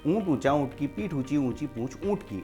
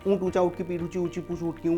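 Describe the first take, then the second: First: It is said at a fast pace. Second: It is said at a very fast pace. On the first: "अब उसको speed से बोलना है" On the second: "और speed से बोलना है"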